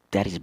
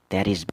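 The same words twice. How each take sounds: The two takes are said the same way.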